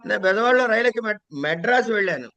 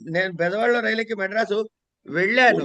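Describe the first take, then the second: First: The word 'Madras' is stressed. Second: The final word, 'vellanu', is stressed. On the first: The traveller reached this city without getting off midway. "నెల్లూరులోనో కావల్లోనో దిగిపోలే" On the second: The trip went through without any trouble. "ఎటువంటి ఇబ్బందులు లేకుండా"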